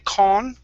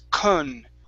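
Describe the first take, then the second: First: The first syllable has a full, clear vowel. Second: The first syllable has a weak, reduced vowel. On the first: The speaker calls it wrong. "we don't want to say con" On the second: The speaker calls it right. "it's kun. Okay? Because the uh, beginning of the word does not receive the stress"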